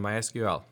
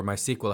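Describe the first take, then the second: First: "my S Q L" with each letter named; "S Q L" spelled out. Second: "my S Q L" pronounced "my sequel". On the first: Listing three images to a colleague, "S Q L" spelled letter by letter. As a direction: say "S Q L" as three separate letters, ess-cue-ell. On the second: Offering colleague another pronunciation, "S Q L" said as "sequel". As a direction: say "S Q L" as one word, "sequel". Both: Shown as a demonstration. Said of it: "however people want to pronounce it".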